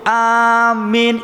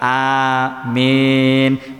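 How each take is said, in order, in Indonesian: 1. Vokal pertama dipanjangkan. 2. Kedua vokal dibaca sama panjang. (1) "yang panjang annya doang" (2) "imbang amin"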